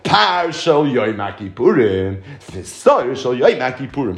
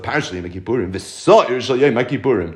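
First: The phrase is read more slowly. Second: The phrase is read quickly. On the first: The speaker calls it right. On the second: The speaker calls it wrong.

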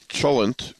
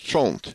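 First: The word is said with two syllables. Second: The word is said with one syllable. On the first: "which is distinctly a two syllable word" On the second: "a single syllable word as I pronounce it in my family"

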